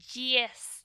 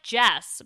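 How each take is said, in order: First: The name is said with a New Zealand-style vowel. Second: The name is said with a plain spelling-based vowel. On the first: "she's from New Zealand, so it's like Jess" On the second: "It's spelled like Jess"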